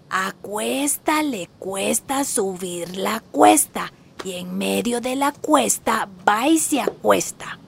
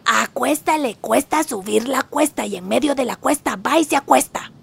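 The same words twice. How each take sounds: First: It is said slowly. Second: It is said fast.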